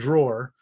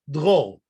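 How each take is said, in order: First: The name sounds like the English word drawer. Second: The name sounds closer to the English word droll. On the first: The speaker calls it wrong. "the correct pronunciation is not drawer" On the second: The speaker calls it right. "it's drôle"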